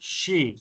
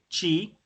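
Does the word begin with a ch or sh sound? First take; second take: sh; ch. First: The word begins with a sh sound. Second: The word begins with a ch sound. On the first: The speaker calls it right. "sino she" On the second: The speaker calls it wrong. "No, no es como con un che, chi"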